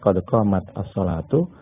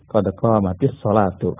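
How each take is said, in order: First: Qamat ends on t, apart from the next word. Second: Qamat runs into the next word with an i. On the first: "kalau mau dipisah" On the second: "kalau mau disambungkan ya"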